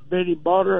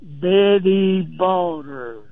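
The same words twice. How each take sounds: First: The name is said at normal speed. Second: The name is said slowly.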